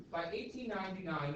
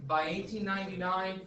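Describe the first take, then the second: First: Said in the usual way. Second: "eighteen ninety-nine" louder, each word stressed; dictation emphasis. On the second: Shown as a demonstration. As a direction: spell out the date for note-taking. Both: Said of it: "I would write this down".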